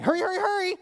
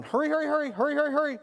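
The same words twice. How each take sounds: First: Put-on high, sweet child's sing-song; little daughter's sweet voice. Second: High, insistent rushing dad voice. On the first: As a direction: imitate a small girl saying it endearingly. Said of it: "then she says back to me". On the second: Retold or imitated. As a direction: push the child along, impatient. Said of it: "And I'm going".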